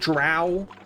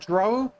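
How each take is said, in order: First: The word ends with an 'ow' vowel. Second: The word ends with an 'oh' vowel. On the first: The speaker calls it wrong. "But not Drow, like the D and D elves" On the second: The speaker calls it right. "I pronounce it Dro, like D R O W"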